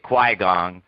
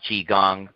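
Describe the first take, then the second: First: The first syllable starts with a 'kw' sound. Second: The first syllable starts with a 'ch' sound. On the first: The speaker calls it wrong. "They're pronouncing it Qui-Gong" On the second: The speaker calls it right. "don't know how to pronounce"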